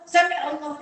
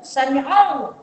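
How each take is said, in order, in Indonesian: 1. Konsonan tenggorokan sebelum Allah dihilangkan. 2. Konsonan tenggorokan sebelum Allah terdengar dengan jelas. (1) "dia tak faham" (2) "bagi dengar bunyi sengau ain tu"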